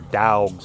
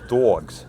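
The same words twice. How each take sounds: First: The word is said in a Southern American accent. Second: The word is said in an East Coast accent. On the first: "if you're down south" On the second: "you Yankees, it's dogs. Well, it's kind of East Coast saying dogs"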